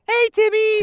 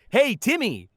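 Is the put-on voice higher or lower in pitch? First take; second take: higher; lower. First: The put-on voice is higher in pitch. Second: The put-on voice is lower in pitch. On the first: This is how the character sounded in later seasons. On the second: This is how the character sounded in early seasons.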